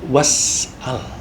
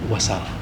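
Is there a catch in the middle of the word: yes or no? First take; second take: yes; no. First: A throat catch splits the word in the middle. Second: The word flows with no catch in the middle. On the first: "asalnya was'al" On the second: "diringkas menjadi wasal"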